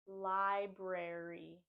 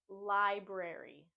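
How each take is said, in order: Both takes have the same delivery.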